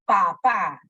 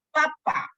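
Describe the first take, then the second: First: "Papá" said pa-PÁ, loud and clear; stress on last syllable. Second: "papá" said PA-pa, stress moved forward; stress on first syllable. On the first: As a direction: put the weight on the final syllable of "Papá". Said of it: "un acento agudo". ("Papá" con acento agudo, en la última sílaba) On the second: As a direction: hit the first syllable of "papá", not the last. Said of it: "ha pasado a la siguiente sílaba". ("papá" con acento grave, en la primera sílaba) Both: Shown as a demonstration.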